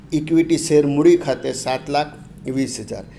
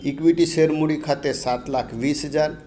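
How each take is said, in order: The two takes are said the same way.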